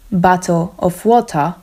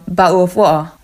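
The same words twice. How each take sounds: First: Said in the usual way. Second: "bottle of water" with glottal stops for the t's, "bau of wo"; Cockney glottal stops. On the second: Shown as a demonstration. Teacher shows a Cockney customer in a shop asking for water. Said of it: "bardzo szybko i bardzo mocno".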